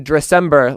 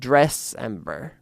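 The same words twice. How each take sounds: First: The first syllable 'dress' is not emphasized. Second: The first syllable 'dress' is emphasized. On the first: "I like to say Dressember, like December" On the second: "a little bit more emphasis on the dress"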